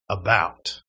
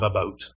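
First: About with an open "ow" vowel; careful American pronunciation. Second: About with a raised Canadian vowel, near "a-boat"; Canadian pronunciation. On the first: Canadian minding words in Ohio, About with open "ow". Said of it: "think for a while before I would say". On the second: Canadian slipping in Ohio, about close to "a-boat". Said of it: "known in Canada of saying about funny". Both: Shown as a demonstration.

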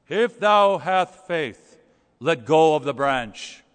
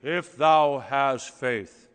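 First: Very slow, loud, solemn booming; booming voice of God. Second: Slow, lower, louder voice from heaven; booming voice of God. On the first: God speaking from heaven to the hanging man, booming slowly. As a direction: boom down from heaven, unhurried and grand. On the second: God answering the man on the branch, slow booming voice. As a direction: boom it down like God from the sky. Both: Retold or imitated. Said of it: "this voice booms from heaven".

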